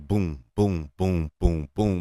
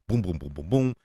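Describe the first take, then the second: First: The booms come slowly, with space between them. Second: The booms come quickly, one right after another. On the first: The scenes were given time. The speaker calls it right. "as opposed to" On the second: The scenes felt rushed. The speaker calls it wrong. "the timing was off on a couple of scenes where it was kind of like"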